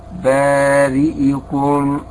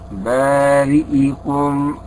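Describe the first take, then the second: The two takes are said the same way.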